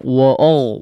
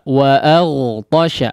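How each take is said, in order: First: The vowel after the glottal stop is rounded. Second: The vowel after the glottal stop is open. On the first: The speaker calls it wrong. "Jangan wa'ol" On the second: The speaker calls it right. "betul-betul difathahkan secara sempurna"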